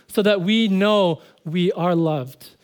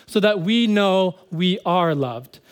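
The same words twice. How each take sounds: The two takes are said the same way.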